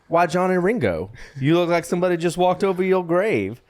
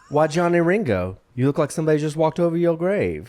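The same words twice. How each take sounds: First: It is read with more energy and enthusiasm. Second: It is read flatly, with little energy. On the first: The speaker calls it right. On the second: The speaker calls it wrong.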